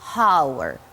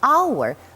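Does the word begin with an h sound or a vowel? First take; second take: h sound; vowel. First: The word starts with a pronounced h sound. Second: The word starts directly with a vowel sound. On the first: The speaker calls it wrong. "but we do not say hour" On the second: The speaker calls it right. "we say hour. We just swallow this H"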